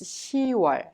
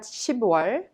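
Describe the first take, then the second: First: No p or b sound is heard before 'wol'. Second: A p or b sound is heard before 'wol'. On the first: The speaker calls it right. "but it's 시월" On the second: The speaker calls it wrong. "It's not 십월"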